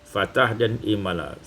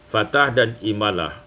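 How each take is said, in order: No difference in how they are said.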